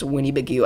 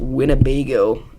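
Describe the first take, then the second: First: The word ends with a 'goo' sound. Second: The word ends with a 'go' sound. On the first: This copies a joking mispronunciation. "as Winnie-Bagoo" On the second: This is the usual name of the place. "he pronounced Winnebago"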